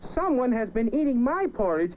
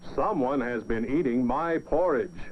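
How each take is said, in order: First: It is said in a tiny, small voice. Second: It is said in a big, deep voice.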